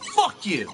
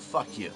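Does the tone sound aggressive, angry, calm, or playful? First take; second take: angry; calm. First: It is said in a clearly angry tone. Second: It is said flatly, calmly, with no emphasis. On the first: The speaker is upset. "Now you can tell I'm getting kind of angry" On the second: The speaker is just explaining something. "I just said that in a tone of voice that you could tell I was trying to explain something. It didn't have any emphasis to it at all"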